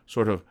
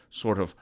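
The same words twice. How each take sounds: The two takes are said the same way.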